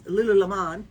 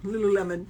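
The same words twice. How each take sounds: First: Lululemon said with a final "MON" as "lulu-la-MON"; alternate pronunciation. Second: Lululemon said as "loo-loo-LEM-un"; corrected pronunciation. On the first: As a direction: end Lululemon on a full "mahn". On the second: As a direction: end Lululemon like the fruit lemon. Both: Shown as a demonstration. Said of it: "Is that how you say it".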